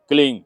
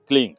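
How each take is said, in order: Both takes have the same delivery.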